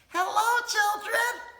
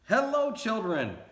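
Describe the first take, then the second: First: It is said in a high voice. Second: It is said in a normal voice.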